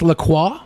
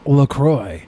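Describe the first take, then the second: First: The name is said with a French pronunciation. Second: The name is said with an American pronunciation. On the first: This is how the words are said in their original language. "It's in French" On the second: This is how the company itself names it. "They call it LaCroix because it's an American company"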